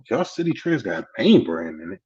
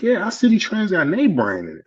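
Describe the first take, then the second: First: Retold double-check at near-usual pitch; mildly surprised question. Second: Higher-pitched, confident retold pitch for the store; imitated eager assurance. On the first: Newcomer checks the store really has brands, mildly surprised question. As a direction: echo the claim back as a question. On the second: Relative assures newcomer the store has brands, imitated eager assurance. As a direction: vouch for it in a lifted voice.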